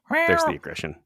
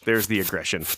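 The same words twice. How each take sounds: First: Squeaky high mock voice. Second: Said in the usual way. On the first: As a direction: squeak it out playfully. Mock squeal after cat hiss.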